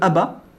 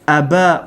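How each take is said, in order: First: The final vowel is short. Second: The final vowel is lengthened. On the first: "au lieu de Aba" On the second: "on va prolonger"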